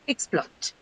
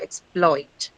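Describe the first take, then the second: First: The stress is on the first syllable. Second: The stress is on the second syllable. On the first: The word is used as a noun. "But if it's used as a noun" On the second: The word is used as a verb. "it is going to be marked on the second syllable"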